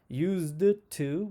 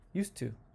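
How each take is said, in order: First: The D sound in used is pronounced. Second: The D sound in used is dropped. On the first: The speaker calls it wrong. "we don't say used to" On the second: The speaker calls it right. "we say used to"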